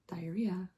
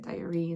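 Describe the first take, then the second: First: The word ends in an 'ee-uh' sound. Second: The word ends in an 'ee' sound. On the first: This is the usual modern way. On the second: This is the old way, said to rhyme with tree.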